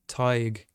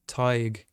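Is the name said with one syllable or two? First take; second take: one; one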